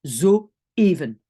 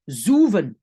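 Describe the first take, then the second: First: "zo even" with a clear break, zo then even; Dutch split syllables. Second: "zoeven" with the Dutch oe said as one "oo" sound, zoo-ven; teacher shows the wrong reading without the dots, "zoeven" as zoo-ven. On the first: Teacher demos the right reading for French learners, "zo even" split into zo and even. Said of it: "attention, nouvelle syllabe". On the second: Teacher demos the wrong reading for French learners, "zoeven" as zoo-ven. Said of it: "je vais prononcer zoeven". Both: Shown as a demonstration.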